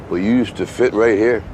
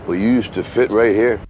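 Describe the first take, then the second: The two takes are said the same way.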